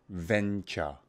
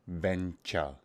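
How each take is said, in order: The two takes are said the same way.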